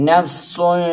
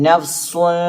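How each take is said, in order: No difference in how they are said.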